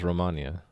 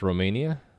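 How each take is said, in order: First: The first part does not sound like 'romaine'. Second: The first part sounds like 'romaine'. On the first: The speaker calls it wrong. "I've always thought of it in my head as Romania, but I could be wrong" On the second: The speaker calls it right. "Like romaine lettuce?"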